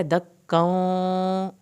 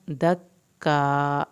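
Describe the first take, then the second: First: دَكًّا with the doubled kaf held and the final tanween stretched slowly. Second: دَكَّا repeated slowly, lower in pitch, with a doubled kaf. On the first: Teacher showing students the correct دَكًّا, slow held kaf. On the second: Teacher repeating دَكَّا for students, lower and slow. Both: Shown as a demonstration. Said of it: "اس طرح سے".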